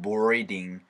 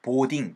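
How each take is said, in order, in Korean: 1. 영어 모음과 r 소리로 발음해요. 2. 한국어 음절로 발음하고, r 소리는 내지 않아요. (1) "boarding 사운드로 만들어 주시면 됩니다" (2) "보딩이 아니고"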